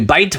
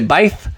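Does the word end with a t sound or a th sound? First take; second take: t; th. First: The word ends with a plain t sound. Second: The word ends with a th sound. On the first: This is the modern pronunciation. "we say bite" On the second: This is the probable historical pronunciation. "We don't say bith"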